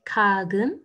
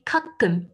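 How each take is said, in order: First: "kagum" slowly, with a voiced g in the middle; wrong soft G. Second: "kakum" in two slow beats, hard unvoiced k; correct hard K. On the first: Teacher showing what she didn't say, soft middle G. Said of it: "j'ai pas dit kagum". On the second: Teacher confirming the word for learners, hard middle K. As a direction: stop before the second k of "kakum", keep it hard. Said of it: "j'ai dit kakum". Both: Shown as a demonstration.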